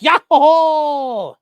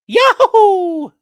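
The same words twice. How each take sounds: First: It is said in a deeper Luigi voice. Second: It is said in a higher Mario voice.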